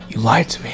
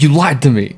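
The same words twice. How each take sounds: First: The line is said in a quiet, subdued tone. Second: The line is said in an openly angry tone. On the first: He is hurt and silently fighting. "But he's like" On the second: He is openly upset. "you would think like if he's upset, he'd be like"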